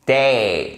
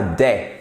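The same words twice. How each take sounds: First: "day" with a long ay glide; careful right example of "day", vowel held; correct diphthong in day. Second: "day" cut short like French è, no glide; short mistaken "day" without diphthong; wrong French vowel in day. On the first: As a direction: stretch "day" so the glide is heard. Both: Shown as a demonstration. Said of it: "ce n'est pas day".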